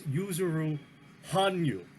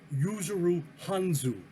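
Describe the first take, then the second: First: The surname's middle consonant is a y sound. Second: The surname's middle consonant is a z sound. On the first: The speaker calls it right. "but it's" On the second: The speaker calls it wrong. "is what I said"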